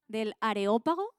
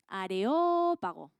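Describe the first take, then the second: First: Said in the usual way. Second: Areópago, slow with the stress hit on the O; Areópago said slowly, weight on the O. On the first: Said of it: "con acento en la O". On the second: Shown as a demonstration. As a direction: draw out Areópago and lean on the O. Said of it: "con acento en la O porque es de esdrújula".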